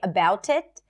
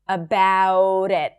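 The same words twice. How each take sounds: First: The linking T is a clear, full T. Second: The linking T sounds like a light D.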